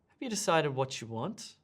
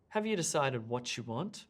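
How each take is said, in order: Both takes have the same delivery.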